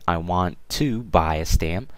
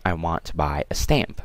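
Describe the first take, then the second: First: The word 'to' is stressed. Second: The word 'to' is unstressed. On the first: The speaker calls it wrong. "don't stress it when talking. So instead of saying" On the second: The speaker calls it right. "just say"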